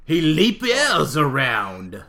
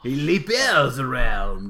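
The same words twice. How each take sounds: First: Bad, slow French accent; slow mock French accent. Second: Slow, loud bad French accent; hammy French accent. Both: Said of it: "my terrible French impression".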